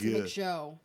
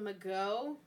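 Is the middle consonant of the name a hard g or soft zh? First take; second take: soft zh; hard g. First: The middle consonant is a soft zh sound. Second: The middle consonant is a hard g sound. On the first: The speaker calls it right. "I think it's Majeau" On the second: The speaker calls it wrong. "That's not right"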